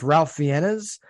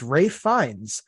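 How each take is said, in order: First: The first name is said like Ralph. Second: The first name is said like Rafe. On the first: The speaker calls it wrong. "I thought it was just Ralph Fiennes" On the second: The speaker calls it right. "It's Rafe Fiennes"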